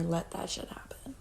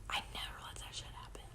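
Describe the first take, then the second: First: Whispered. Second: Fast, far softer whisper, almost gone; faint whisper. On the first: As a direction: say it under your breath in disbelief. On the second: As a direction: let it fade to a ghost of a whisper. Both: Real, not acted.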